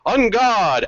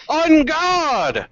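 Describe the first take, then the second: First: Lightly mocking, high-pitched challenge; mocking battle cry. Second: High, drawn-out challenge; battle cry. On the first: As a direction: echo the hero's cry with mild mockery. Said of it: "you hear a mocking tone". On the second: Acted. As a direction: call out the challenge as you charge. Voices hero's battle cry.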